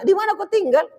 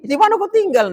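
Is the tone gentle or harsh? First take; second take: gentle; harsh. First: It is asked in a soft, gentle tone. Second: It is asked in a rough, harsh tone. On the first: The speaker is polite and caring. The speaker calls it right. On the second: The speaker is rude. The speaker calls it wrong.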